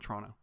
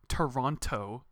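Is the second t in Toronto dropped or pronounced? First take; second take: dropped; pronounced. First: The second t is dropped. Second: The second t is clearly pronounced. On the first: The speaker calls it right. "just so let's just get rid of the T" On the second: The speaker calls it wrong. "it's not Toronto"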